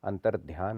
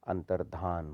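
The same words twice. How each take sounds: First: अंतर्ध्यान ending "dhyaan"; wrong added y. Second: अंतर्धान ending "dhaan"; correct, no y. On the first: Teacher showing the error, अंतर्ध्यान with a y glide. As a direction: put a y after dh in अंतर्ध्यान. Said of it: "नहीं होता". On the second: Teacher correcting it, अंतर्धान with plain dhaan. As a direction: say अंतर्धान with no y glide. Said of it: "होता है". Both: Shown as a demonstration.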